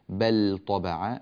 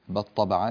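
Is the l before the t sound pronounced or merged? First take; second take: pronounced; merged. First: The l is clearly pronounced before t. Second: The l is merged into the t. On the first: The speaker calls it right. "اللام تحتاج إلى إظهار" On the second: The speaker calls it wrong. "ولا نقول"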